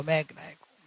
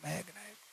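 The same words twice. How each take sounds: First: Quiet, inward repetition; soft affirmation. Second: Much softer, almost breathed out; near whisper. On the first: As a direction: say it softly to yourself. (धीमे स्वर में आत्म-स्मरण) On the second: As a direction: let it fade to a whisper inside. (लगभग फुसफुसाते हुए) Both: Acted. Repeated inner affirmation, fading.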